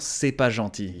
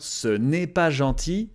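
First: The word 'ne' is dropped entirely. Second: The word 'ne' is fully pronounced. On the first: It is the everyday, casual way to say it. "But more naturally, when we speak" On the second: It is the proper, formal way to say it. "The subtitle is grammatically correct"

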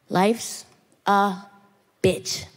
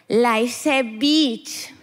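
First: It is said in the speaker's plain accent. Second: It is said in a Colombian accent.

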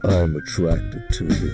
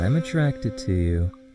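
First: It is said in a deeper, more intense way. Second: It is said casually, with a smirk.

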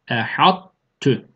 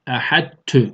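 First: The merged t keeps a heavy, emphatic quality. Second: The merged t sounds light and thin. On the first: The speaker calls it right. "O istialayı, kalınlığı, gücü nakıs idgamda belli ediyoruz" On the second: The speaker calls it wrong. "Ehad tü şeklinde ince değil"

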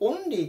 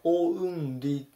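First: The first vowel is a plain, pure o. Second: The first vowel glides from o to u. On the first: The speaker calls it wrong. "よくOnly って聞くと思うんですけど" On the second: The speaker calls it right. "本当はOnly、このうが入ります"

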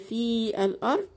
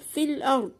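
First: The vowel of the first word is stretched long. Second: The first word's vowel is dropped, linking straight on. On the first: The speaker calls it wrong. "ينفع اقول في الارض واعمل كده ما في الارض؟ لا طبعا" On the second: The speaker calls it right. "دخلت من الفاء، ما نطقتش الياء اهو"

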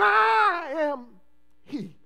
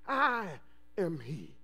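First: It is said with great power and force. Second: It is said in a plain, ordinary voice.

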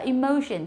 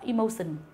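First: The middle consonant is a hushing 'sh' sound. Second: The middle consonant is a hissing 's' sound. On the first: The speaker calls it right. "chúng ta đọc là emotion" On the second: The speaker calls it wrong. "chứ không phải là emotion"

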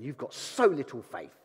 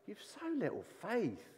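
First: It is said in a harsh, scornful tone. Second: It is said in a warm, smiling tone. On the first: The listener is being scolded. The speaker calls it wrong. "like that" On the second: The listener is being gently corrected with love. The speaker calls it right. "with a smile on his face"

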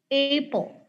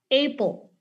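Both takes have the same delivery.

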